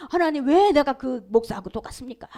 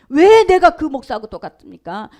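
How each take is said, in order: First: Said in the usual way. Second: 왜 pushed loud with a rising question; retold indignant outburst, louder; angry protest. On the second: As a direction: demand 왜 loudly, voice rising. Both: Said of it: "목사님이 화가 난 거예요".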